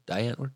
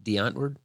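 First: "Die" said to rhyme with "eye" in "Die Antwoord"; alternative pronunciation. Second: "Die" said like "dee" in "Die Antwoord"; alternative pronunciation. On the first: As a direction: softly ask "Die Antwoord" as "dye ANT-wurd". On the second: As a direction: softly ask "Die Antwoord" as "dee AHNT-wurd". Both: Shown as a demonstration. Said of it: "how to properly say it".

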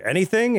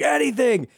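First: ANYTHING rising high as a question; "Anything" said higher, turning up at the end; questioning echo. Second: ANYTHING pitched very high, then falling; "Anything" as a high, pleading confirmation; emphatic answer. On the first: Retold question back to victim. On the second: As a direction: cry "Anything" high and drop the end. Retold victim's desperate answer. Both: Retold or imitated.

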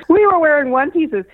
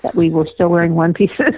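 First: High and laughing through the words. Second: Said in the usual way. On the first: Real, not acted. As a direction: laugh it out, amused at yourself. Laughing repeat of the line.

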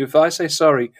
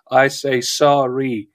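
First: Said in the usual way. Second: SORRY drawn out slowly, each syllable weighted; emphatic SORRY. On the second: Acted. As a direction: say SORRY slowly and deliberately, as a solemn pledge. Insists on weight of an apology.

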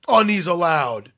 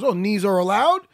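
First: Slow mimicking echo, ALLOWED falls at the end; drawn-out echo. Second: Retold question, ALLOWED lifts at the end. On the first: Ref echoing the fighter's rule question, drawn-out mimicry. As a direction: draw out "knees allowed", falling on allowed. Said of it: "He goes". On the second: Fighter checking a rule with the ref, questioning. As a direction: ask it with "allowed" rising. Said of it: "so then Merab goes".

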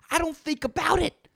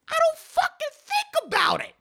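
First: Said in the usual way. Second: Much higher, strained repeat; mock freak-out. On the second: Comic repeating himself in a higher, panicky squeal.

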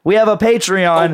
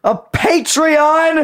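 First: Louder repeat. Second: Drawn-out high squeal; squealed high and slow. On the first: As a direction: announce it louder. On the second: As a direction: stretch it into a shriek. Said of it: "A what?". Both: Pretend.

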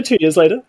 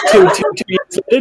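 First: Said in the usual way. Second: Laughing exclaim. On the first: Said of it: "repeated calmer". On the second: Real, not acted. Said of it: "stunned correction".

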